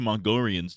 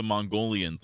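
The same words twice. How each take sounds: First: "Mongolians" said as "Mongorians". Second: Said in the usual way. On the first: Shown as a demonstration. Streamer shows his verbal tic, "Mongolians" with R replacing L. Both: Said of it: "replacing my L's with R's".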